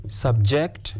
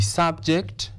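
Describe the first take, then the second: First: Subject as a verb, sub-JECT; stress on second syllable. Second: Subject as a noun, SUB-ject; stress on first syllable. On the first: Teacher reading the example sentence, subject stressed on its second syllable. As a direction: put the weight of subject on JECT. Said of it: "If it is used as a verb, you stress the second syllable". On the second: Teacher reading the example sentence, subject stressed on its first syllable. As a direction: put the weight of subject on SUB. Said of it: "If it is a noun, you stress the first syllable". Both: Shown as a demonstration.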